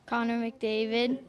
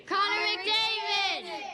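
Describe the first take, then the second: First: It is said calmly, without much energy. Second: It is said loudly, with passion.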